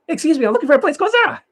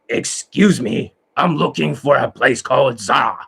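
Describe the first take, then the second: First: It is fast and sounds happy. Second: It is slow and sounds angry. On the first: "they go fast and they're happy" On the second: "when they slow down, they sound like this. They're angry like Satan"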